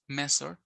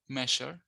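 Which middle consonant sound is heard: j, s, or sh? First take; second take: s; sh. First: The middle consonant is an s sound. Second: The middle consonant is an sh sound. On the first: "or another phoneme s" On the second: "Sometimes it's pronounced with a phoneme sh"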